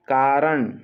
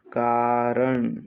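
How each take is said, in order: First: Said in the usual way. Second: Slow, long-vowelled कारण; drawn-out syllables. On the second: Shown as a demonstration. Teacher dictating to students, कारण slowly stretched.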